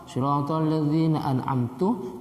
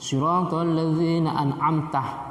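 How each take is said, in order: First: The last word ends with a 'u' vowel. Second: The last word ends with an 'a' vowel. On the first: It refers to the speaker himself. The speaker calls it wrong. "dibaca dhamma" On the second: It addresses God as the one who gave favor. The speaker calls it right. "mestinya fathah"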